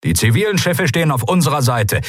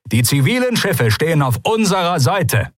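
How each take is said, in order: First: High, projected commander's message; fleet radio announcement. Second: High, insistent radio repeat, "unserer Seite" spelled out firmly; emphatic repeat. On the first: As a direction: announce it briskly to the whole fleet. First take of repeated fleet message. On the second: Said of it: "Ich wiederhole". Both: Acted.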